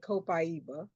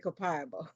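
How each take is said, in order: First: It is said the Brazilian way. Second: It is said the American way.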